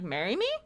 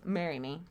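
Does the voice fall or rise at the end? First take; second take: rise; fall. First: The pitch rises at the end. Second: The pitch falls at the end. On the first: It is asked as a question. "upper inflection at the end like" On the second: It is stated, not asked. "There's no question"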